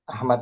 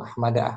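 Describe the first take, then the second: First: The name ends on the consonant d. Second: The name ends with a final a vowel. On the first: The speaker calls it right. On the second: The speaker calls it wrong.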